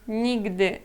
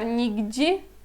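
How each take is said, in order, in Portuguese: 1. A terminação é pronunciada dura, sem suavização. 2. A terminação é pronunciada suave, com suavização. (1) "não soa suave, é nigdy" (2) "se alguém falar nigdi, eu já vou entender isto aqui"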